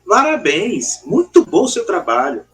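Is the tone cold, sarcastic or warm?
warm. It is said warmly and sincerely.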